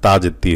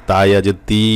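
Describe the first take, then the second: First: Final তি said short; no long stretch. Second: Final তি held long; long stretch. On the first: Teacher shows students the letter dropped, short তি. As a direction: keep the ee of তি brief. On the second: Teacher shows students where ইয়া counts, long-held তি. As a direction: lengthen the ee of তি. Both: Shown as a demonstration. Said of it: "লম্বা টান না দেন".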